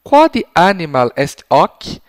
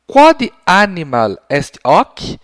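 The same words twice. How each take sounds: First: Slow, loud, spelled-out Latin question; slow repeated question. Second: Slow, carefully spaced Latin question; teacher modelling a question, slow and loud; slow clear question. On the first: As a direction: repeat it slowly for the child. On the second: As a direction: model the question slowly for a child. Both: Shown as a demonstration. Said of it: "com a seguinte pergunta".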